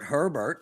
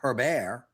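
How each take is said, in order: First: The name is said with an English pronunciation. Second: The name is said with a French pronunciation. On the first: This is how most people say the name. The speaker calls it wrong. "everybody calls Justin Herbert" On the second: This is claimed to be the real way to say the name. The speaker calls it right. "it's clearly"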